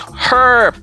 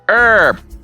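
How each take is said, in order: First: The word starts with a forceful h sound. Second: The word starts without an h sound.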